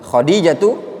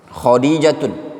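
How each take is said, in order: First: The name ends without an n sound. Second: The name ends with an n sound. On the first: The speaker calls it right. "itu yang benar" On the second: The speaker calls it wrong.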